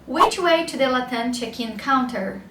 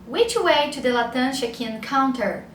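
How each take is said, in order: Both takes have the same delivery.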